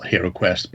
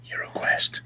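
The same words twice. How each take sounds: First: Said in the usual way. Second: Soft, voiceless aside; hushed wink. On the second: Shown as a demonstration. Host slyly naming the unofficial set, hushed wink. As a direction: drop to a near-whisper on the name.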